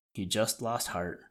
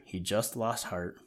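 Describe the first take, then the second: First: Said in the usual way. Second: Lost stressed, said slowly and heavily; slower emphatic repeat. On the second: A narrator's reading. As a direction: lean on lost, let it sink. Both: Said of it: "Yes, sir".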